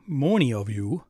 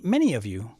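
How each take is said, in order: First: Loud Wisconsin accent with a long, rounded "many"; exaggerated Wisconsin vowel on "many". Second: Said in the usual way. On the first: Shown as a demonstration. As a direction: say "many" like "moany", Wisconsin style. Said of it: "that's my Wisconsin accent".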